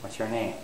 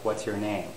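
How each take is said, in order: First: The melody stays flat without rising then falling. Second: The melody goes up from your, then falls. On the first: The speaker calls it wrong. "So it's not just" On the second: The speaker calls it right. "It would go up, beginning on your, and then rise, and then finally follow"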